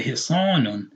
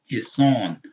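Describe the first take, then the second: First: "hisanun" with -un added after the long vowel; tanween ending. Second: "Hisan" with a long second vowel, no -un; elongated fatha. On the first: Showing learners it isn't three syllables, tanween voiced. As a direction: sound the final -un on "hisanun". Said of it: "It's the tanween". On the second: Teaching the aleph to learners, long vowel. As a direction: stretch the aa in "Hisan" and stop on n. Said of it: "the aleph is elongating the fatha". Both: Shown as a demonstration.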